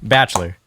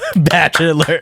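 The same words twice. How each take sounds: First: The word is said with two syllables. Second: The word is said with three syllables. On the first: "now say it with two" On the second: "that's three syllables"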